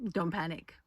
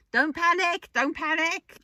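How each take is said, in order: First: Said in the usual way. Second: Much higher, louder frantic don't panic; Jones's panicky don't panic. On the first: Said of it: "As Corporal Jones says". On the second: Retold or imitated. Vlogger voicing Corporal Jones from Dad's Army, high frantic alarm. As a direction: flap about like a panicking old soldier. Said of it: "Private Jones in the corner of my head going".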